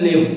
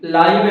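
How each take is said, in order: First: The vowel is a short 'i' sound. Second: The vowel is a long 'eye' sound. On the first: It names an action. "വെർബായിട്ട് വരിക എന്ന് പറഞ്ഞാൽ ലിവ്" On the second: It describes a noun. "Adjective ആയിട്ട് ... ലൈവ് എന്ന് ഉച്ചരിക്കും"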